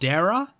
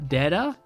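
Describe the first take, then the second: First: The middle consonant is an English r sound. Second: The middle consonant is a quick tongue tap. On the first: "instead of" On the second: "they're using the Japanese R"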